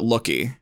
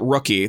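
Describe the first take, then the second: First: The word begins with an L sound. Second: The word begins with an R sound. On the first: The speaker calls it wrong. "They all pronounce it Looky" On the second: The speaker calls it right. "none of them can really pronounce it Rookie"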